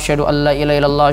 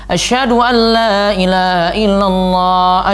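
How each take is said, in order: First: It is said softly, in a low voice. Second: It is said loudly, in a raised voice. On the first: Only people nearby are meant to hear it. "disebut dengan suara lirih" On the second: It is announced for everyone to hear. "Ulang lagi dengan suara yang lebih keras"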